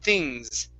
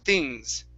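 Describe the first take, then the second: No difference in how they are said.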